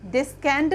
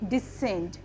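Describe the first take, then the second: First: A k sound follows the s. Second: The c is silent, with no k sound. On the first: The speaker calls it wrong. "डिस्केंड नहीं होगा ये" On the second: The speaker calls it right. "सी silent"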